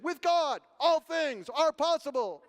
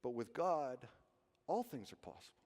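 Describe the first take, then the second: First: Loud, high, slow congregational chant; choir-like response. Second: Soft, low inner voice; inside voice. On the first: Retold or imitated. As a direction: proclaim it together like a choir. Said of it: "It was like a choir". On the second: Shown as a demonstration. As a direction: say it gently inside your head. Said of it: "inside voice".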